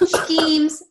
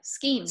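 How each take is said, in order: First: The word is strongly enunciated, sound by sound. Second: The word is said casually, without extra enunciation. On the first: This imitates how someone else says it. "I enunciate it the way it's spelled" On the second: This is the speaker's own usual way of saying it. "And I'm just like"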